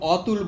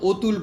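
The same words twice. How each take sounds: First: The first vowel is an open 'aw' sound. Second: The first vowel is a closed 'o' sound. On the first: "আমরা ধরো অতুল বলি না" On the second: "অর্থাৎ অধ্বনিটা ও ধ্বনিতে"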